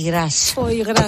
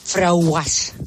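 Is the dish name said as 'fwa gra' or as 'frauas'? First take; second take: fwa gra; frauas. First: It is said as 'fwa gra', two syllables. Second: It is said as 'frauas', blended together. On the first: "tenía un nombre muy raro" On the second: "Entonces lo decía así"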